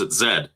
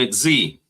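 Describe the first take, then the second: First: The letter is said as zed. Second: The letter is said as zee.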